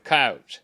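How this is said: The word is said with a South Texas pronunciation. "some of the guys with the South Texas accent would say coyotes"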